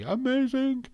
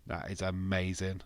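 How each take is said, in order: First: AMAZING leaps high and loud; excited gush. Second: Said in the usual way. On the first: Real, not acted. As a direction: start normally, then squeal "amazing" high. Gushes, word leaps high.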